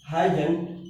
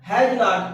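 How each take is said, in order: First: It is said as one short contracted word. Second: It is said as two separate full words.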